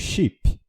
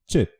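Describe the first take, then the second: First: The i vowel is long, Portuguese-style. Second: The i vowel is short, English-style. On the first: "a gente pronuncia em português como chip" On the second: "com som do i mais curto"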